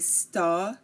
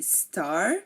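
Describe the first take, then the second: First: The final R is silent. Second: The final R is pronounced. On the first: "they say sta" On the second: "we say star"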